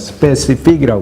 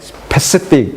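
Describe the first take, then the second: First: The first s sound is voiced. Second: The first s sound is made with breath. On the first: This is how Korean speakers say it. "스페시픽이라고 하는데" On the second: This is how English speakers say it. "이 스가 소리 발음이 아니고 바람이기 때문에 스페시픽 이렇게 발음해요"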